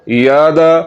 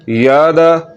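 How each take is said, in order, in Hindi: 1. पहला स्वर लंबा खींचा हुआ है। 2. पहला स्वर लंबा खींचा हुआ है।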